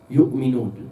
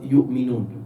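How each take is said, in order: No difference in how they are said.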